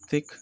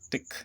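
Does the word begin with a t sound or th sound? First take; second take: th; t. First: It begins with a soft th sound. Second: It begins with a hard t sound.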